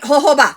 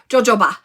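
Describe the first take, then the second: First: The word begins with an H sound. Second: The word begins with a J sound. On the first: The speaker calls it right. "It is hoho. So Santa Claus ba" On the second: The speaker calls it wrong. "I said it wrong all the time. I said jojoba. It is not jojo"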